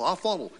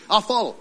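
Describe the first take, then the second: First: The stress falls on the word follow. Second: The stress falls on the word I'll. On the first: The act of following matters most. "We put the emphasis on follow" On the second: The one doing the following matters most. "Yeah, me"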